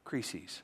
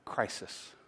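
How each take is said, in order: First: The word is pronounced the Greek way. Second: The word is pronounced the English way. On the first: "The word there that Jesus used in his language was the word krisis" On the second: "Or if you would pronounce it the English way"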